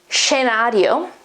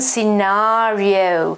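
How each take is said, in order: First: It is said with Italian sounds, starting with sh. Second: It is said with English sounds, starting with s. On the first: "In Italian, the pronunciation is" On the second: "This is the English transcription, phonetic transcription"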